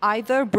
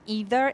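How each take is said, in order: First: It is said with a British pronunciation. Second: It is said with an American pronunciation. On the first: "either British" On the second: "either American"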